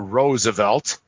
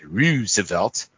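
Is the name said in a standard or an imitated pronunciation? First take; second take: standard; imitated. First: The name is said with its standard pronunciation. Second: The name is said with an imitated, distorted pronunciation.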